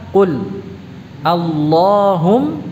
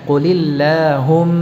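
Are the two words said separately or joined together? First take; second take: separately; joined. First: The two words are said separately, not linked. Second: The two words are linked with a vowel between. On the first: "Kalau kita ucapkan secara terpisah" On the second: "Tapi kalau disambung, digandeng"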